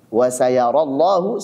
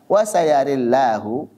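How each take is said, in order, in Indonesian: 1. A biasa setelah r, l tebal. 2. Vokal miring setelah r, l tipis. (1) "seperti riwayat Hafiz An-Asim" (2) "ra-nya imalah dan lamnya tipis"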